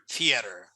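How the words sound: It is said in an American way. "in America we pronounce like theater"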